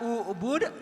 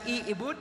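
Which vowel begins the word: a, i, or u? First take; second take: u; i. First: The word begins with a u vowel. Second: The word begins with an i vowel. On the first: The speaker calls it right. "Dibaca ubud" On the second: The speaker calls it wrong. "dibaca i'bud"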